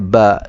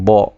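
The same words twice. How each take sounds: First: The ba sound is thin and light. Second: The ba sound is thick and heavy. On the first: The speaker calls it right. "Huruf ba nipis, sebutannya ba" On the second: The speaker calls it wrong. "bukannya ba"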